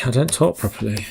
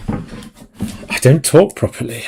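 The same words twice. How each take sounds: First: Said in the usual way. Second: "I don't talk properly" drawn out slowly and slurred; deliberately sloppy, slowed "talk properly"; mock mumbling. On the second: Shown as a demonstration. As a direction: slur it lazily to show the tired speech. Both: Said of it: "you guys can tell when it's been a hard week".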